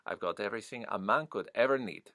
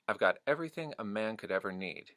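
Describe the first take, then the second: First: It is said in a rounded Puerto Rican accent. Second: It is said in a General American accent. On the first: "that sort of roundedness that I'm hearing" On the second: "so General American"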